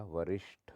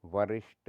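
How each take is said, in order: First: वरिष्ठ slowly, ending in breathy tha; aspirated th. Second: वरिष्ठ said as varisht; no puff of air ending वरिष्ठ; unaspirated t. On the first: Teacher corrects it, वरिष्ठ with breathy ठ. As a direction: puff air on the ठ of वरिष्ठ. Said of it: "होता है". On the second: Teacher shows the error, वरिष्ठ with ट. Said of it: "नहीं होता". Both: Shown as a demonstration.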